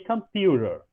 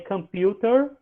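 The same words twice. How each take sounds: First: The t is pronounced like a quick r. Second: The t is pronounced as a clear t. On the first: "como se esse T aí fosse um R" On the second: "Teve um momento que eu falei computer"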